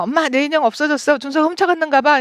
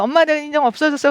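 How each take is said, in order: First: Put-on higher, quicker whiny child's complaint; child complaining angrily. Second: Put-on higher, quicker child's complaint; upset child. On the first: Seven-year-old telling mom her doll is stolen, whiny and upset. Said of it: "이러면서 막 화를 낸다면". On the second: Little child telling mom her doll vanished, upset. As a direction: whine it like a small child. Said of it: "막 화를 낸다면".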